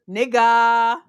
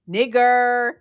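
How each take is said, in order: First: The word ends with an open vowel, no R. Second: The word ends with a strong R sound. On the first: "Say it without the hard R" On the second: "Say it with the hard R"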